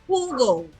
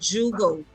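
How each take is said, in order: First: It begins with an h sound. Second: It begins with a j sound. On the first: The speaker calls it right. "J is pronounced H. So Hugo" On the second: The speaker calls it wrong. "and not Jugo"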